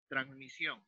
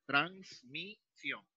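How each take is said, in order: First: Said in the usual way. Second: "transmisión" broken slowly as trans - mi - sión; split into syllables. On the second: Shown as a demonstration. Teacher dividing a word for students, "transmisión" in slow separate syllables: trans, mi, sión. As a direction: say "transmisión" syllable by syllable, with clear gaps. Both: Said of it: "separé".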